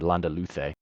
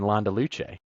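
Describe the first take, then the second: First: The c is pronounced as a th sound. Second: The c is pronounced as an s sound. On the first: "Apply apply that little th if you want to sound really sophisticated" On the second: "we've been saying Landa Luce"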